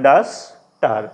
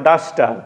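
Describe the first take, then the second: First: "duster" as ডাস, pause, টার; split into syllables. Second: Said in the usual way. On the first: Shown as a demonstration. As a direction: break "duster" into two separate beats. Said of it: "যদি ভাগ করি কি হবে". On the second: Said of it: "ডাস্টারকে আমরা যদি ভাগ করি".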